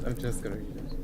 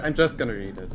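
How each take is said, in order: First: Soft, low, hushed reading voice; a hushed wise old voice; Looks to the Moon voice. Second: Said in the usual way. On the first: Acted. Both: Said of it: "Is it time for Looks to the Moon voice?".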